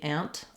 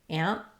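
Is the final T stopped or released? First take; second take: released; stopped. First: The final T is clearly released. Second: The final T is stopped and not released. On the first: "British way, They would definitely let that T out" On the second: "I'm going to stop that T. That would be the American way"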